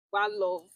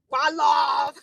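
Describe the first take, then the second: First: Said in the usual way. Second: Loud, drawn-out slogan shout; shouted cheer. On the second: Shown as a demonstration. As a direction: call it out like a rallying cry.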